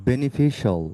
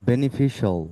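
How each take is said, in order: The two takes are said the same way.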